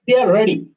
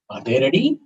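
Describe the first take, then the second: First: "They are ready." loud and high, dropping on "ready"; statement intonation. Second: "Are they ready?" climbing through "ready"; question intonation. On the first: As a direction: declare it firmly, "They" high and "ready" falling. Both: Shown as a demonstration. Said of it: "change the intonation a little bit".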